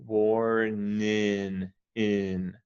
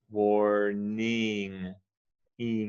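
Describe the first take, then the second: First: "warning in" very slow, ending in a plain N; without the G. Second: "warning" very slow, ending in a nasal NG. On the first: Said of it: "without the G, it would be". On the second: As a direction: stretch "warning" and land on NG. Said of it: "But with the G, it's". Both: Shown as a demonstration. Tutor contrasts the ending slowly for the student.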